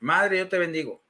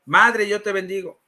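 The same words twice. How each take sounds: First: Subdued echo of the blessing; understated follower's response; obedient repetition. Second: Firm model blessing, lightly imitated; lightly acted priest's prompt; priest leading a repetition. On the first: Retold or imitated. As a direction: repeat it back dutifully, lightly acted. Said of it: "Y yo digo". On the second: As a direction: give the phrase out to be repeated. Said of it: "A ver, repite conmigo".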